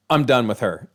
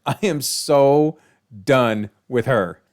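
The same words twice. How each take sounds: First: Said in the usual way. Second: Slow, drawn-out "I am so done with her"; emphatic stress on so. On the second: Shown as a demonstration. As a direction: lean hard on "so" and "done", dragging them out.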